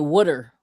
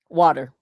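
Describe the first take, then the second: First: It is said in a Philly accent, like wooder. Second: It is said in a standard, non-Philly accent.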